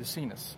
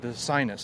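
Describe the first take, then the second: First: The name is said without the American pronunciation. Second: The name sounds like the English word sinus.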